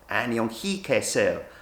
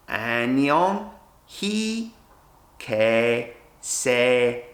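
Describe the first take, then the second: First: It is said at normal speed. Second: It is said slowly, broken into parts.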